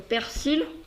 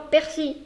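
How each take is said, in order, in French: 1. Le L final se prononce clairement. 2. Le L final est muet. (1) "On reste sur le persil" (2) "on ne fait pas persil"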